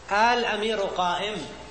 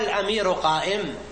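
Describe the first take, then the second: First: The opening vowel is drawn out long. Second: The second glottal stop is softened and eased. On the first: "تكون مد" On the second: "تسهيل الهمزة الثانية همزة الوصل"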